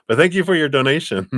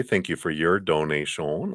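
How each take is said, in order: First: Higher, louder, quick and cheerful, no French accent now; bright thanks. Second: Put-on a light, barely there French accent on the thanks; French imitation. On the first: Shown as a demonstration. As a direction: toss off the thanks fast and bright. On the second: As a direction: thank them with a faint mock French accent. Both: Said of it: "That's my French imitation anyway".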